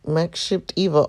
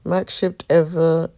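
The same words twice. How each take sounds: First: "Eva" said with a long e, like EE-vuh. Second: "Eva" said with a short e, like EV-uh. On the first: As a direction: say "Eva" as EE-vuh, first vowel as in "see". Retake with corrected name. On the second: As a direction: say "Eva" as EV-uh, first vowel as in "bed". Self-corrects the name on retake. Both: Real, not acted.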